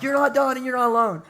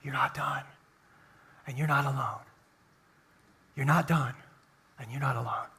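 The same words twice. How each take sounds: First: Much higher big-voiced preacher shout; mock pastor yell. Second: Much softer, hushed and intimate; whisper. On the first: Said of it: "a pastor with a big voice to yell". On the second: Pastor showing God whispering into hearts, hushed. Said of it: "he just whispers that". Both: Shown as a demonstration.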